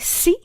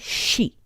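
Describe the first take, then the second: First: The syllable starts with a plain S sound. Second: The syllable starts with a soft SH sound. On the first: The speaker calls it wrong. "Japanese people don't say si" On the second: The speaker calls it right. "they say shi. So it's a soft S H sound"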